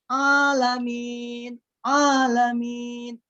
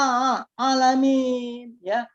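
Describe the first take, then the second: First: Slow "Alamin" with a plain, wrong a; stretched, wrong alamin. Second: Slow, careful alamin; correct alamin. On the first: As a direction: drag out alamin the mistaken way. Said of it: "jangan alamin". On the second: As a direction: say alamin from the throat. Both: Shown as a demonstration.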